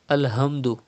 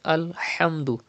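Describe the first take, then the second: First: The h is a light, ordinary h sound. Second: The h comes from deep in the throat. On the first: The speaker calls it wrong. "Do not say Alhamdu" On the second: The speaker calls it right. "Pronounce ha from the middle part of your throat"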